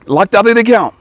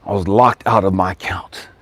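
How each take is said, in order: First: Laughing disbelief. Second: Said in the usual way. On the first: Real, not acted. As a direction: laugh through the words in disbelief. Repeats it laughing.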